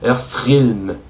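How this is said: It is said with a French accent. The speaker calls it wrong. "Il dit Earthrealm. C'est totalement faux"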